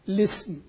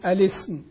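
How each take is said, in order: First: It begins directly with an L and short i. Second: It begins with a glottal stop and short a. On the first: "وإذا ابتدأ باللام يبدأ الاسم بلام مكسورة" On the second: "فله الابتداء بهمزة الوصل، يعني يقول الاسم"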